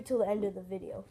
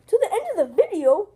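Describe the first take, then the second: First: Said in the usual way. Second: High, loud incredulous question; shocked disbelief. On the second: Acted. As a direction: echo it back in shock. Shocked repeat of the wait.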